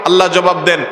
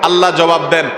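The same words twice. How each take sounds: The two takes are said the same way.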